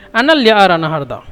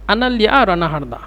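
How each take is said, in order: Both takes have the same delivery.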